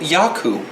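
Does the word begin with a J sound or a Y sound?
Y sound. It is said Scandinavian-style, starting with Y.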